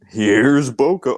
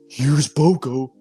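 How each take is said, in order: First: It is said in a natural speaking voice. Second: It is said in a put-on character voice.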